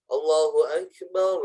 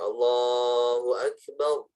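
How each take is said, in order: First: The phrase is said short and quick. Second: The phrase is drawn out long.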